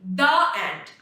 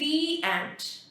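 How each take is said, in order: First: The word 'the' is said with a short 'uh' vowel. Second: The word 'the' is said with a long 'ee' vowel. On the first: The speaker calls it wrong. "I will not be saying the ant" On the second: The speaker calls it right. "I'll say the ant"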